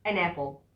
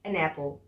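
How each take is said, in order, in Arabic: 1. الأداة قصيرة ومتصلة بالاسم. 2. الأداة قصيرة ومتصلة بالاسم.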